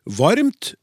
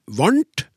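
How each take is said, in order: First: Said in the usual way. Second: "varmt" said as varnt, n for m; common mispronunciation. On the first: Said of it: "alle uttaler feil". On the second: Shown as a demonstration. Host reads listener's example, "varmt" turned into varnt. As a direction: say "varmt" with n replacing the m. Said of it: "uttales gjerne varmt".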